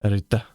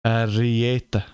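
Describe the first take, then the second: First: Areta said the way he hears it, Eh-ree-ta; echoing her. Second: Arieta said slowly with a clear ee-eh in the middle; slow down and say Arieta, Ah-ree-eh-ta; finally right. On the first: Repeating a friend's name the way he hears it, carefully. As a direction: copy Areta exactly as you heard it, Eh-ree-ta. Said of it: "that's how I hear you saying it". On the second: Finally getting a friend's name right, slow and careful. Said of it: "Yeah, like that". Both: Shown as a demonstration.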